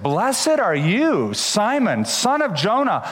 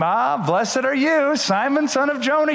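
First: Slow, weighty words of praise; solemn blessing. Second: Mock blessing. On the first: Acted. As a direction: bless him slowly and warmly. Jesus praises Peter. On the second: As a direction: play the praise Peter hoped for, overdone. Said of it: "Peter expected Jesus to say a second time".

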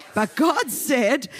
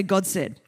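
First: "But God said" slow, stress on "God", rising; emphatic scripture line. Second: Said in the usual way. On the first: Shown as a demonstration. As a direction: lean hard on "God" and draw "But God said" out. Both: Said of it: "everyone say".

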